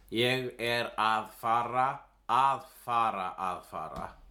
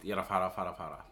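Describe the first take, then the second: First: Each repeated fara has a full að before it. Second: The repeated fara forms come without að before them. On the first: "the correct grammar is" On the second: "But you would pronounce it"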